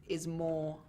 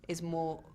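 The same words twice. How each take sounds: The two takes are said the same way.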